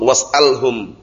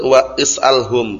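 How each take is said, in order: First: The 'i' vowel is dropped, joining 'wa' and 's'. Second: An extra 'i' vowel is heard before 's'. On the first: This is the connected form actually used. "Tapi karena hamzah wasal was'alhum" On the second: This is the original underlying form. "Seharusnya wa is'alhum. Aslinya kan seperti itu"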